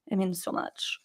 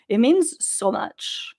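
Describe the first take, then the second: First: "It means so much" repeated almost silently, much softer; soft echo. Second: Said in the usual way. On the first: Shown as a demonstration.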